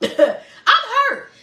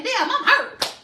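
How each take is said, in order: First: Laughing through a high mock whine. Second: High, hammed-up cry of pain; mock hurt voice. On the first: To her audience, repeating her own quote while laughing loudly. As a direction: crack up as you repeat it. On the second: To her audience, about admitting pain, in a high mock-hurt voice. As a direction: play at being wounded, half joking. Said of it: "Because we're afraid to say".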